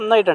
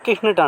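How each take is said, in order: First: The k is silent, said like nite. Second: The k is sounded, said like k-nict. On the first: This is the modern pronunciation. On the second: This is the Middle English pronunciation. "కానీ వాళ్ళేమంటారు? కిహ్నుట్ అంటారు"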